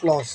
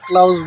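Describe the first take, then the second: First: The vowel sounds like 'aw', as in 'law'. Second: The vowel sounds like 'ow', as in 'cow'. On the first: The speaker calls it right. "তবে উচ্চারণটা হবে ক্লস" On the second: The speaker calls it wrong. "আমি এটা ক্লাউজ বলতাম"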